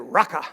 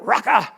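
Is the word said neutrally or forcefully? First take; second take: neutrally; forcefully. First: It is said in a plain, neutral way. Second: It is said forcefully, as if meant.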